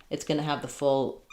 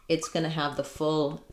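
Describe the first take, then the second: The two takes are said the same way.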